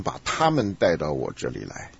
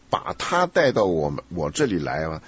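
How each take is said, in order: First: 他们 picked out as the wrong plural; misreading with 他们. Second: 他 stressed as the correct singular word. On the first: Teacher quotes the student's slip back, stress on 他们. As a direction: lean on 他们, then let the rest fall away lower. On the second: Teacher corrects a student's misreading, stress on 他. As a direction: land firmly on 把他, slowing down for it. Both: Shown as a demonstration. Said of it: "你，你念成".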